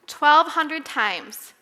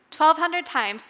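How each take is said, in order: First: Twelve hundred times dragged out slowly and loudly; slow emphatic repeat. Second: Twelve hundred times said again at normal speed, still loud; quicker repeat. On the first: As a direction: lean on every word of twelve hundred times. Preacher hammering a number. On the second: Repeat of the number. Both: Shown as a demonstration.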